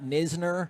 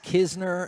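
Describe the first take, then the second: First: The name begins with an N sound. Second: The name begins with a K sound. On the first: The speaker calls it wrong. "and not Nisner" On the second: The speaker calls it right. "I feel very confident it is Kisner"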